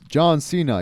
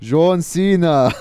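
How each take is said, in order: First: It is said in a plain accent. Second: It is said in an Arabic accent.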